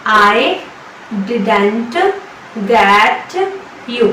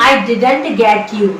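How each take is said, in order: First: Each word split by pauses; slow word by word. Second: Very slow and deliberate; slow teaching demo. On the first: Teacher breaking the sentence into words for students. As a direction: drill word by word. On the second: Teacher modelling the English, very slow. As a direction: lay it out slowly for students. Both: Shown as a demonstration. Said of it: "इसकी English होगी".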